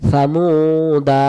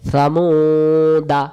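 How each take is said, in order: First: সামুদা with the মু stretched long; long alif. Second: সামুদা said with the alif silent, held slowly; short alif dropped. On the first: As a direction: pull the vowel in সামুদা out for one alif. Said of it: "তার মানে এটা এক আলিফ টান". (সামুদা-তে এক আলিফ টেনে পড়া) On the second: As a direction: read সামুদা without the extra alif. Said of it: "বাদ চলে গেল". (আলিফ বাদ দিয়ে সামুদা পড়া) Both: Shown as a demonstration.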